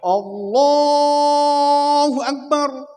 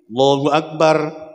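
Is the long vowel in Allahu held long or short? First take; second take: long; short. First: The long vowel in Allahu is stretched out. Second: The long vowel in Allahu is cut short. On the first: "Jangan berlebihan. Jangan ditambahi"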